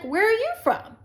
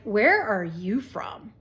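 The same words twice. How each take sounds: First: It is asked with friendly curiosity. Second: It is asked with a suspicious, judging tone.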